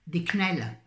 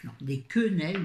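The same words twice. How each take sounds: First: Quenelles squeezed into two quick syllables, knel; clipped quenelles. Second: Quenelles with the first vowel sounded, keu-nel; careful quenelles. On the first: A slip while naming her shopping, said as knel. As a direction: say quenelles quickly, swallowing the first vowel. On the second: Correcting her own slip while showing her shopping, said in full. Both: Shown as a demonstration.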